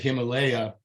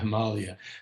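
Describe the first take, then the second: First: It is said in the anglicized style. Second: It is said in the Sanskrit style. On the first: It is a form changed by colonial English speakers. "the British when they uh, were in India, anglicized" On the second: It is the original local name. "Himalaya is the is the Sanskrit name"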